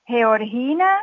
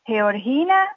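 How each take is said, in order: The two takes are said the same way.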